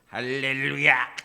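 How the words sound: It is said in a croaky, forced, frog-like voice. "깨구리 소리라 그러는데"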